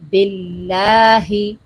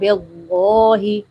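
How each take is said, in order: First: The word is pronounced light and thin. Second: The word is pronounced heavy and thick. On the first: The speaker calls it right. "बिल्लाही बारीक पढ़ना है" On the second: The speaker calls it wrong. "कुछ लोग पढ़ जाते हैं बेगोही, मोटा कर जाते हैं"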